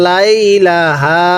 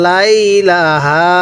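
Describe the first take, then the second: Both takes have the same delivery.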